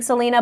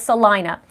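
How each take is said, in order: First: The name is said the way its spelling suggests. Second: The name is said the way locals say it. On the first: The speaker calls it wrong. "I called it Salina because it looks like Salina" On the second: The speaker calls it right. "but it's Salina"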